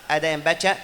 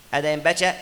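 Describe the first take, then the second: The two takes are said the same way.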